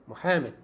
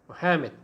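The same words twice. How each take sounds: Both takes have the same delivery.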